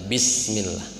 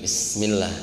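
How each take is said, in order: First: The opening 'bi' is pronounced clearly and fully. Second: The opening 'bi' is rushed and barely heard. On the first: The speaker calls it right. "bi-nya harus terbaca" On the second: The speaker calls it wrong. "Jangan ujug-ujug bismillah"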